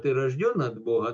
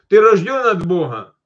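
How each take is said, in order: First: It is asked in a plain, curious tone. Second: It is asked in a challenging, superior tone. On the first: The asker simply wants to know. The speaker calls it right. "просто как бы вопрос, интерес" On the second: The asker is trying to catch the other person out. The speaker calls it wrong. "часто меня вот так иногда люди цепляли так"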